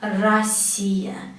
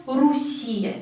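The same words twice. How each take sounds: First: "Россия" slowly as ra-SSI-ya; correct A vowel. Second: "Russia" mispronounced as ru-SSI-ya; wrong U vowel. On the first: Teacher correcting the mistake, "Россия" said slowly ra-SSI-ya. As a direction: open A first in "Россия", stretch the stressed "си". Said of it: "pronounce A because O here is not stressed". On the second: Teacher showing a common mistake, "Russia" said ru-SSI-ya. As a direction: put a U in the first syllable of "Russia", Russian-style. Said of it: "the country is not Russia". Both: Shown as a demonstration.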